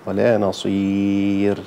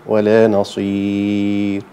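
First: "نصير" ending on a clearly voiced ra; voiced final ra. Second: "نصير" stopped before the ra, ra swallowed; cut-off final ra. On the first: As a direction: stop at the end of the ra in "نصير", voiced. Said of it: "المفروض يكون فيها صوت". (الصواب: الوقف على آخر الراء بصوت) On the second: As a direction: drawl "ولا نصير" then choke the voice off before the ra. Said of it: "قبل الراء كده في أولها كده ويقف". (خطأ: حبس الصوت قبل نطق الراء في "نصير") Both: Shown as a demonstration.

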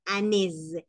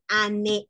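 First: "années" with one é and a buzzed z ending; correct single E. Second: "année" with an extra separate e, a-né-é; wrong doubled E. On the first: Teacher showing it sounds once, correct single E. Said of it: "suena una vez". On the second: Teacher showing what we won't say, wrong doubled E. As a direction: add a second é onto "année" as the mistake. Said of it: "No vamos a decir année". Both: Shown as a demonstration.

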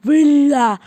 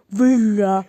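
First: Villa said as "wela" with a w sound; mispronounced villa. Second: Villa with a clear v, "vila"; correct villa. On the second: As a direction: say villa properly, crisp v. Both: Shown as a demonstration. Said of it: "Allah daha villa demeyi bilmişsen".

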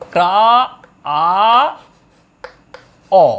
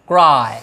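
First: ক্রা, আ, অ each on its own; long pauses between ক্রা, আ and অ; broken into sounds. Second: Said in the usual way. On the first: Shown as a demonstration. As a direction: sound out ক্রাই piece by piece as ক্রা - আ - অ. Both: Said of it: "এটাকে এভাবেও ভাঙা হয়".

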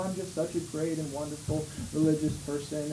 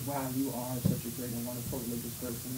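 First: Low, soft, self-satisfied boast; smug hypocrite. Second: Much lower and softer, fast, awed mock praise; gushing admirer. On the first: Retold or imitated. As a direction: purr your own praise. Hypocrite boasting, then crowd echoes. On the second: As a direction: gush at him in a hushed rush. Admiring crowd echoes the boast.

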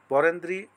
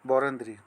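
First: Varendri with a rising list tune; Varendri said lightly, rising, as the list continues; listing an option. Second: Varendri lower with a firm final fall; Varendri closed off low and falling, like a verdict; announcing the answer. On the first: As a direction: read Varendri as one choice among many, pitch going up. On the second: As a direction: state Varendri as the settled answer, dropping low at the end. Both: Shown as a demonstration. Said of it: "উত্তরটি হবে খ".

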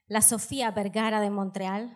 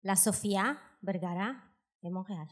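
First: Full Spanish accent on the name; Spanish pronunciation. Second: Frenchified version in a Spanish accent; mock translation, lower, with French pronunciation of Montréal; translated into French. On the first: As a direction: say it as in Spanish, rolling along. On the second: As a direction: spell the name out French-style, in pieces. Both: Shown as a demonstration. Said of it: "Je vais vous traduire".

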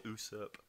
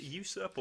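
First: USURP starting with a pure "oo"; first vowel of usurp as plain "oo"; usurp without Y glide. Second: USURP starting like "you"; first vowel of usurp as "yoo"; usurp with a Y glide. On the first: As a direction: say usurp as "OO-surp". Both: Shown as a demonstration. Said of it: "Is it usurp or usurp?".

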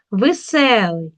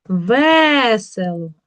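First: "Веселий" stressed on the middle syllable; stress on second Е. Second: "Весело" with a long, loud first Е; stress on first Е. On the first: Teacher reading the word to check, stressed second syllable. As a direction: slowly lean on СЕ in "Веселий". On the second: Teacher showing the check word, stressed first syllable. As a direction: stretch ВЕ in "Весело" loudly. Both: Shown as a demonstration. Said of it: "Під наголосом".

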